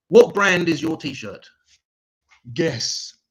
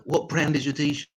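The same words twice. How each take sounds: First: Slow, louder questioning voice; mock posh English joke. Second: Said in the usual way. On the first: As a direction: set up a dry English joke, slowly. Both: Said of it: "my English joke".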